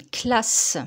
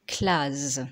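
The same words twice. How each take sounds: First: « classe » avec un S final sifflant; son S. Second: « classe » prononcé « claze »; un seul S, son Z. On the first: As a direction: prononce « classe » en finissant sur sss. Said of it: "pour faire le son S". (« classe » avec consonne finale sourde) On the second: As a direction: termine « classe » sur un zzz sonore. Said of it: "Si je ne mets qu'un seul S". (« classe » dit claz, plus grave) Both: Shown as a demonstration.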